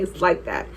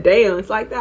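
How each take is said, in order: First: THAT dropped low as a final answer; lower, softer "like that", falling at the end; flat confirmation. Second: "it's like that" with THAT lifted at the end; questioning comeback. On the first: Girl confirming her refusal to him, final. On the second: Guy reacting to being refused a hug, questioning. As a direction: let THAT rise as a question. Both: Retold or imitated.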